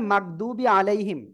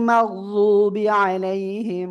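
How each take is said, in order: First: The ḍād letter is said in a common, inexact way. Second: The ḍād letter is said with careful tongue placement. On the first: The speaker calls it wrong. "অনেকে পড়ে মাকদুবি আলাইহিম, তাই না? এরকম আওয়াজটা পান আপনারা।" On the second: The speaker calls it right. "এভাবে উচ্চারণ করতে হয় এই দদ অক্ষরটা"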